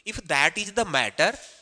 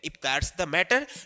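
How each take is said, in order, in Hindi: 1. 'That is' दो पूरे शब्दों की तरह बोला जाता है। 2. 'That is' एक ही सिलेबल में सिकुड़कर बोला जाता है। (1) "इसका मतलब होता है इज" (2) "कॉन्ट्रेक्शन फॉर्म में दैट्स बोल सकते हैं"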